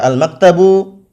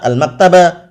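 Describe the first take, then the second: First: The word ends with a u vowel. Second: The word ends with an a vowel. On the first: "tidak boleh dibaca al-maktabu" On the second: "tidak boleh juga dibaca al-maktaba"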